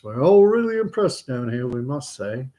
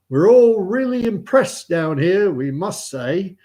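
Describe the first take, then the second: First: Lightly voiced chapel response; schoolboys repeating prayer. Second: Slow, raised, loud intoning; praying chaplain. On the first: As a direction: echo the prayer line in a raised voice. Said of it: "All the kids". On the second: Acted. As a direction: intone it ponderously as a chapel prayer. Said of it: "the vicar or priest or chaplain".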